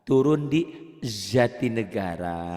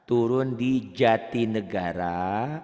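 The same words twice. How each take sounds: First: "Jatinegara" slowly said as "Zatinegara"; Z in place of J in "Jatinegara"; J swapped for Z. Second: "Jatinegara" drawn out with a firm J; hard J, not Z, in "Jatinegara"; hard J sound. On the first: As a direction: drill a buzzing Z at the start of "Jatinegara". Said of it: "bahasa itu ganti dengan Z". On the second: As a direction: slowly drill the hard "ja" in "Jatinegara". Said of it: "ja keras semuanya". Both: Shown as a demonstration.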